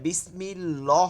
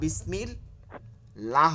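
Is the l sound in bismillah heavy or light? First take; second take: heavy; light. First: The l sound is heavy and thick. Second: The l sound is light and thin. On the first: The speaker calls it wrong. "বিসমিল ল হবে না" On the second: The speaker calls it right. "বিসমিল লা হবে"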